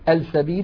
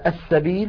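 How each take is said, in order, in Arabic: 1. تُنطق اللام بوضوح قبل الحرف. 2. تندمج اللام في الحرف التالي المشدَّد.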